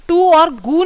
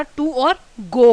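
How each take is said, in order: First: "गू" with an oo vowel, rhyming with "टू"; both words of "टू और गू" on one oo sound; mispronounced GO. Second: "गो" with a long o, unlike the oo of "टू"; slow, clear "टू और गो" with two different vowels; correct GO vowel. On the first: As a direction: say "गू" wrongly, same oo as in "टू". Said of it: "टू और गू नहीं होता". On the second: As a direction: contrast oo in "टू" with o in "गो". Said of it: "phonetic symbol different होने की वजह से". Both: Shown as a demonstration.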